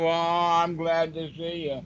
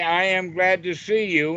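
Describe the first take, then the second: First: It is said glumly, without enthusiasm. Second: It is said cheerfully, with a smile.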